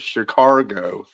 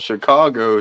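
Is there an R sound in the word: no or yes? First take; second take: yes; no. First: It is said with an added R sound. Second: It is said without any R sound. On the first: The speaker calls it wrong. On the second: The speaker calls it right.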